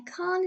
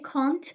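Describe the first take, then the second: First: The final t sound is dropped before stand. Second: The final t sound is clearly pronounced. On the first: The speaker calls it right. "Here the te sound has been elided" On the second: The speaker calls it wrong. "I don't say can't"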